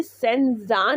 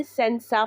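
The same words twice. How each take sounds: First: "सेंजा" with a voiced z sound in the second syllable; mispronounced senza. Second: "सेंसा" with an unvoiced s sound in the second syllable; pronounced with s. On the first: Teacher showing learners the reading to avoid, mispronounced "सेंजा" with z. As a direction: say "सेंजा", buzzing the middle consonant as z. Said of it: "इसको हमने सेंजा नहीं पढ़ना". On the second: Teacher showing learners how to read it, "सेंसा" with s. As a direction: say "सेंसा", a hissed s instead of z. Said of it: "इसको हमने सेंसा पढ़ना है". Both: Shown as a demonstration.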